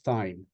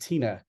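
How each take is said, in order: First: The name has one syllable, rhyming with fine. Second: The name has two syllables, rhyming with Lena. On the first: The speaker calls it wrong. "Last month I said Thine, and I have been corrected" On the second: The speaker calls it right. "It is Tina"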